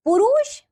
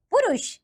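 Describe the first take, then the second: First: पुरुष with a long second vowel; mispronounced पुरुष. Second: पुरुष with a short second vowel; correct पुरुष. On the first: Teacher showing children a wrong form, mispronounced. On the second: Teacher giving children the right form, correctly pronounced. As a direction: say पुरुष carefully as "purush". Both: Shown as a demonstration. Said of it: "नीचे कुछ अशुद्ध शब्द".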